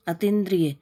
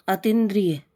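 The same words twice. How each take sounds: The two takes are said the same way.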